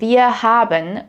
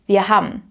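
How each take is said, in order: First: Haben is said as two full syllables. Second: Haben is squeezed into one syllable, ham. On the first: "instead of saying" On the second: "that often gets shortened to ham"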